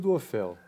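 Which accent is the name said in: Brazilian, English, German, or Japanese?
Brazilian. It is said with a Brazilian Portuguese pronunciation. This is how people say it in Brazil. "No Brasil"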